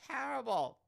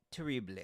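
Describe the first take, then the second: First: High-pitched mock British accent; attempted British accent. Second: "Terrible" said the French way; French pronunciation. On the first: Host mocking own mistake, high attempted British accent. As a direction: throw out a hammy, high British pronunciation. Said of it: "I would try to do a British accent". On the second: Shown as a demonstration. Host switching from British attempt, French-accented "Terrible". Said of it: "That's French".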